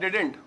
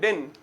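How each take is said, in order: First: Two syllables, ending with a t sound. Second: One syllable, with no final t sound. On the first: The standard contraction. "डिड नॉट को मिला के" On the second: An even more informal form. "डिंट का भी टी silent कर देते हैं"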